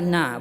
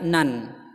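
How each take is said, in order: First: The syllable ends on the vowel, without n. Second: The syllable ends with an n sound. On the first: The speaker calls it right. "maka dibaca na" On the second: The speaker calls it wrong. "bukan dibaca nan"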